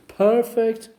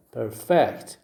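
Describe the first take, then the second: First: PER in perfect punched, second syllable lighter; stress on first syllable. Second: FECT in perfect punched after a light per; stress on second syllable. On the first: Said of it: "first syllable". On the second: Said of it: "second syllable". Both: Shown as a demonstration.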